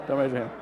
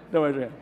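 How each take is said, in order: Both takes have the same delivery.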